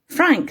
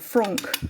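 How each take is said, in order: First: The name is pronounced with English sounds. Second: The name is pronounced with French sounds.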